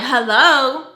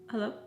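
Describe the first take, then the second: First: The hello is loud and confrontational. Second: The hello is calm and controlled. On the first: The speaker is angry and demanding an answer. "I wasn't like" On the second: The speaker is trying not to provoke him. "I made sure that to keep my tone"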